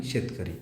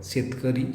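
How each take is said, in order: First: शेतकरी said lower and softer with a final fall; falling tune. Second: शेतकरी said with a rising end, like a first item; rising tune. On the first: Teacher showing the plural to students, low falling tune. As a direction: drop शेतकरी down low and close it off. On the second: Teacher showing the singular to students, rising tune. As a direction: lift the end of शेतकरी as if more follows. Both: Shown as a demonstration. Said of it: "एक शेतकरीच म्हणतो आणि एक शेतकरीच म्हणतो".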